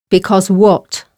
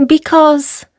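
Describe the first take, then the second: First: Lion at the reader's natural pitch. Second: High, tentative mouse voice; little mouse. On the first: Lion questioning mouse, understated lion voice. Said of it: "said the lion". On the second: Mouse explaining to lion, high little voice. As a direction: break off as a small high mouse. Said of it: "said the mouse". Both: A narrator's reading.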